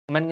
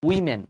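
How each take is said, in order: First: The first syllable sounds like "oh". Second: The first syllable sounds like "wih". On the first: The speaker calls it wrong. "অনেকে বলে ওমেন। ওমেন কিন্তু ভুল।" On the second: The speaker calls it right.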